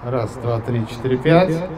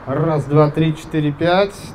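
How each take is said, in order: First: The voice has an echo effect on it. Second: The voice is dry and slightly louder, without echo. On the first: "Эхо, кстати, убирается" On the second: "Я сейчас уберу эхо с микрофона и чуть-чуть добавлю громкости"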